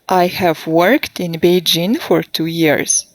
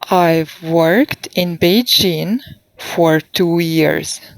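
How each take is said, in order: First: It starts with the full form I have. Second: It starts with the contracted form I've.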